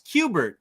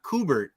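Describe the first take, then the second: First: The name begins with the sound 'cue'. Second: The name begins with the sound 'koo'. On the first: The speaker calls it right. "it's Qbert" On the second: The speaker calls it wrong. "not Kubert"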